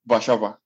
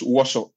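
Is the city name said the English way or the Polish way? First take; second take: Polish; English. First: The name is said in its longer Polish form. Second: The name is said in its short English form. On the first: "Polish people pronounce that Warszawa" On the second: "English people pronounce that as Warsaw"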